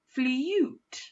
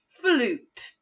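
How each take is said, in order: First: The vowel is a 'you' sound with a y-glide. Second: The vowel is a plain 'oo' sound. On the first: The speaker calls it wrong. "try it the second way just to check. F, all, you, t" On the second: The speaker calls it right. "I'm going to try it the first way first. F, all, oo, t"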